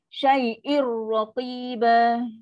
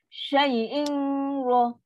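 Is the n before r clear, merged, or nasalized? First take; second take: merged; nasalized. First: The n merges fully into r without nasal sound. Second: The n is held with a nasal hum before r. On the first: The speaker calls it right. "nun dia dah masuk one hundred percent" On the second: The speaker calls it wrong.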